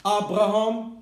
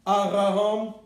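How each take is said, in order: Both takes have the same delivery.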